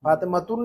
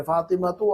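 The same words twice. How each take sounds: First: फातिमातुन closed with a sounded "-un"; with tanween ending. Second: फातिमातु ending on an open short "u"; without tanween. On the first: Teacher recalling the rule for women's names, फातिमातुन with tanween. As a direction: say फातिमातुन with a final n. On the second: Teacher recalling the rule for women's names, फातिमातु without tanween. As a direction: say फातिमातु with no n at the end. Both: Shown as a demonstration. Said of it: "औरतों के नामों पर हमने तनवीन नहीं पढ़ी थी".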